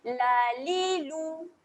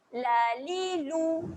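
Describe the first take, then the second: No difference in how they are said.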